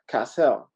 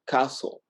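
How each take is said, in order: First: The name is said with a French-like sound. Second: The name sounds like the English word castle. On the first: The speaker calls it right. "It's like Cassell, you know. So it's kind of like Cassell, kind of like French" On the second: The speaker calls it wrong. "they say Lexi Castle and actually it's wrong"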